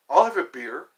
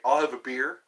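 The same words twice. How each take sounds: First: Louder beer order. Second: Said in the usual way. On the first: Retold or imitated. Vlogger ordering in a pub, louder repeat. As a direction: repeat "I'll have a beer." louder, pushed out. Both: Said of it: "Or you say".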